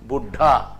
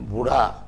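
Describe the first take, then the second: First: The tongue stays up, making a held stop. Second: The tongue flicks down, making a quick flap. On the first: "ऊपर में रह गया" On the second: "नीचे चला आया"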